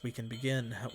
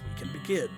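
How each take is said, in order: First: It is said in the speaker's normal voice. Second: It is said in a put-on character voice. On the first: The speaker calls it wrong. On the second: The speaker calls it right.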